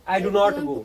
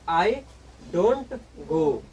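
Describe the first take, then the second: First: Both words 'do not' are said in full. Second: 'Do not' is shortened to the single word 'don't'. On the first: "तो थोड़ा लंबा sentence हो गया" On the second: "मतलब दोनों का कहने का सेंस एक ही है"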